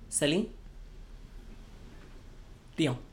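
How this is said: There is a pause between the two names. The speaker calls it right. "You have to take a break in between"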